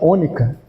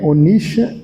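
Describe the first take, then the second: First: The consonant after the n sounds like k. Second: The consonant after the n sounds like sh. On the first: The speaker calls it right. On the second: The speaker calls it wrong.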